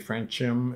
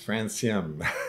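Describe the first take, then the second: First: The C is sounded like a K. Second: The C is sounded like an S. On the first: The speaker calls it wrong. "they say francium. It's not" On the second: The speaker calls it right. "The C is pronounced as an S"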